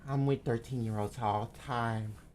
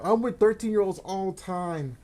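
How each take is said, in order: First: It is said mimicking another man's voice. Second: It is said in the speaker's ordinary voice.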